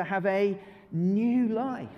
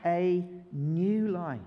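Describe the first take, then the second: First: Slow, drawn-out chant; new life said slow together; slow group recital. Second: Slow drawn-out recital; slow chant with the children; slow group recital. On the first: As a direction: lead the congregation slowly. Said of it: "can we say it together". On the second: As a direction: lead the room slowly. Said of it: "can we say that bit together?". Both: Shown as a demonstration.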